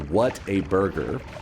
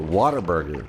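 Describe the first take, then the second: First: It is said without a Southern accent. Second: It is said with a Southern accent.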